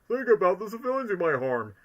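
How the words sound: It is said in Knuckles' voice.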